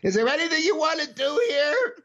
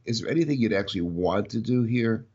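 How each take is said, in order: First: It is asked in a panicky tone. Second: It is asked in a calm tone.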